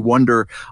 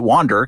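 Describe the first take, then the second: First: The first vowel is a short 'uh' sound. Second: The first vowel is an open 'ah' sound. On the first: "It's supposed to be Wonder" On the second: "I pronounce it Wander because they kind of do"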